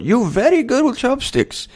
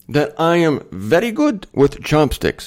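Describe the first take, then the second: First: Put-on much higher Korean-accented "You very good with chopsticks."; playful Korean-accented praise; imitating Korean accent. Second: Said in the usual way. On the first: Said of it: "she says".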